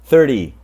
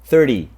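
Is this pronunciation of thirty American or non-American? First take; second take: American; American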